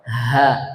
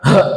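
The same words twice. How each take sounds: First: The h sound is weak and breathy. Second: The h sound is strong and forceful. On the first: The speaker calls it right. "Kalau ha dibaca lemah" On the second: The speaker calls it wrong. "Bukan ha"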